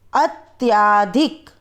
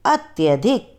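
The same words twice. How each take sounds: First: अत्याधिक slow with a wrong long aa after त्य; wrong form. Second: अत्यधिक with a short a after त्य; correct pronunciation. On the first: Teacher shows students the wrong spelling aloud, slow mistaken form. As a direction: drag out अत्याधिक with the extra aa. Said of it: "पहले हम आपको अशुद्ध वर्ण बताएंगे". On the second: Teacher gives students the correct form, short vowel. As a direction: say अत्यधिक crisply, no long aa. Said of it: "फिर हम शुद्ध उच्चारण करके बताएंगे". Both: Shown as a demonstration.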